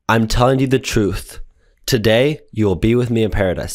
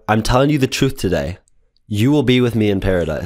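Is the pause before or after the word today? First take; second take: before; after. First: The pause comes before the word today. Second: The pause comes after the word today.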